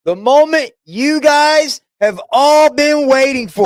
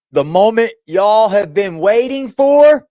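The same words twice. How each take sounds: First: Much higher, showman announcer call; hyped announcer. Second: Said in the usual way. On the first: Shown as a demonstration. Host teases viewers before showing the cat, announcer-style. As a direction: build it up like a ringside host.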